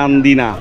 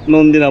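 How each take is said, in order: First: The first vowel sounds like 'a'. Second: The first vowel sounds like 'o'. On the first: The speaker calls it right. "হবে হচ্ছে নান্দিনা" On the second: The speaker calls it wrong. "ভুল করে ফেলছি আমি, নন্দিনা বলে ফেলছি"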